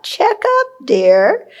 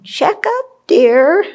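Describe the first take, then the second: First: Put-on high, light voice of the old teacher; Lama's reminder. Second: High, light voice of a kindly teacher nudging; a teacher's fond little prompt, raised high; gentle teacher's reminder. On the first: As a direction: echo his fond little prompt, raised high. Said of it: "what Lama used to say a lot". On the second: Retold or imitated. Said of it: "my teachers sitting there on my shoulder saying".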